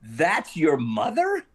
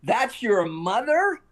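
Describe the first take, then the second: First: Slow, drawn-out mock disbelief; imitating a stunned star; incredulous question, retold. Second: High, drawn-out mock shout; much higher, stretched-out disbelieving yell; retold bellow. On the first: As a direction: stretch it out into a rising question. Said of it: "he cracked up and he went". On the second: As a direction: imitate an incredulous holler, slow and rising. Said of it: "at the top of his lungs".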